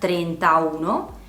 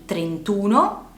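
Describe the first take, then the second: First: The a before uno is pronounced. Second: The a before uno is dropped. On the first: The speaker calls it wrong. "non trentauno" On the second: The speaker calls it right. "quindi trentuno"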